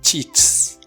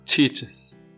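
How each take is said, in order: First: The word ends in a plain s sound. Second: The word ends in an added iz syllable. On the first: The speaker calls it wrong. "Let's try to pronounce it with the S sound" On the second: The speaker calls it right. "Now let's try with the Z sound"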